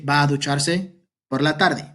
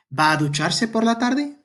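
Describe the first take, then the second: First: Said in the usual way. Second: ¿Va a ducharse por la tarde? with pitch climbing high on tarde; rising question tune. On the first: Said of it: "the intonation indicates if it's". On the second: Shown as a demonstration. Teacher shows the class how a question sounds, rising on tarde. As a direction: lift the whole line up into a question at tarde. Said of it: "the intonation would be".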